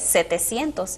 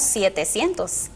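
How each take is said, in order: First: The first syllable has the plain vowel 'se'. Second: The first syllable keeps the diphthong 'sie'. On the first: The speaker calls it right. "la forma correcta" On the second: The speaker calls it wrong. "conservar los diptongos"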